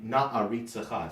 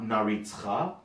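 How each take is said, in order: First: Said with the glottal stop and every vowel pronounced. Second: Said without the glottal stop, with vowels dropped. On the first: The speaker calls it right. "all the ayins and aleph have their glottal stops, and all the shvas... are being pronounced" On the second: The speaker calls it wrong. "not naritzcha"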